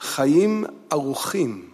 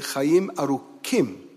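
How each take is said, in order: First: The middle consonant is soft and breathy. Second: The middle consonant is a hard k.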